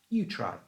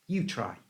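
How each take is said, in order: Both takes have the same delivery.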